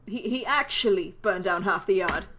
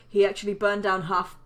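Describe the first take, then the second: First: Slower restart, leaning hard on "actually"; stress on "actually". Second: Said in the usual way. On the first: Acted. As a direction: draw out "actually" as the key word.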